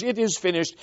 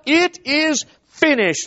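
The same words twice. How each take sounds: First: Said in the usual way. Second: It is finished drawn out high and slow as a cry; Savior's triumphant cry from the cross; cried out. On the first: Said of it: "out of those words". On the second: Retold or imitated. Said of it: "cried out".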